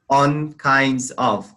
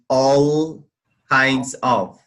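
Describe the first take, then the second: First: The first word ends with an N sound. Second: The first word ends with an L sound. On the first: The speaker calls it wrong. "you said on kinds of" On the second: The speaker calls it right. "instead of saying all kinds of"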